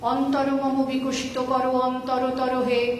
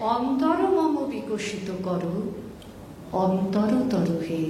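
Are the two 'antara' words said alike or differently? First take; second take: alike; differently. First: Both antara words have the same delivery. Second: The two antara words have different deliveries. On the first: The speaker calls it wrong. "অনেকে বলেন" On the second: The speaker calls it right. "দুটোর দুটো অন্তরের উচ্চারণ কিন্তু আলাদা।"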